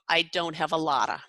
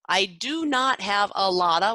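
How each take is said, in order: First: The words 'do not' are contracted. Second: The words 'do not' are said in full. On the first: The speaker calls it right. "Shortens to" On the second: The speaker calls it wrong. "far too many words in it, and it sounds very choppy"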